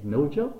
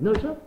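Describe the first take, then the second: First: Said in the usual way. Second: Higher and louder, stunned question; can't believe it is this easy; amazed disbelief. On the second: Retold or imitated. Repeats the surprising news, louder.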